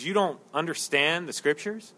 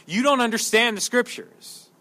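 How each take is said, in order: First: "you don't understand the scriptures" low and soft, rising at the end; gentle question. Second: "You don't understand the scriptures" stated at full voice, falling at the end; blunt statement. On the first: Preacher paraphrasing Jesus nicely, "you don't understand the scriptures" softly asked. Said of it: "We wouldn't say it as nicely". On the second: Preacher spelling out Jesus' meaning, "You don't understand the scriptures" as a firm statement. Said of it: "What is he saying?". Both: Acted.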